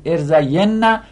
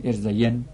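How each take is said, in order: First: ارزین نه as er-za-YEN-na, doubled n with final 'a'; heavy emphatic nun. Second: ارزین as er-za-yen, softly ending on a single n; light emphatic nun. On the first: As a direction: lean on the doubled 'nna' ending of ارزین نه. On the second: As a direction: drop ارزین softer onto a plain final n. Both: Shown as a demonstration.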